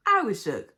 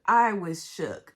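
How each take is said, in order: First: I shouted, much louder; real shocked outburst; loud exclaim. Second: I was shook said slowly and loud; loud, slow emphatic repeat; slow stretched repeat. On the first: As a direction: blurt out the shock. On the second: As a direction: drag each word out for emphasis. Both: Real, not acted.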